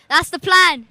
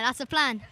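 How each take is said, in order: First: It is said loudly. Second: It is said at normal, soft volume.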